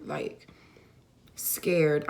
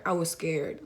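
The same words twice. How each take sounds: First: A breathless whispered word. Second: Said in the usual way. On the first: Real, not acted. Telling viewers how scared she was, in a whisper. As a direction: let the fear drop into a whisper.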